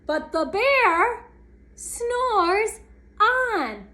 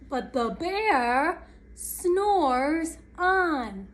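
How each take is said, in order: First: Raised, louder "but the bear snores on"; emphatic story refrain. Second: Drawn-out, slow storytelling line; slow and lingering narration; slow story refrain. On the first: Refrain repeated with more emphasis. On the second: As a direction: stretch each word of the refrain. Story refrain read slowly. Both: A narrator's reading.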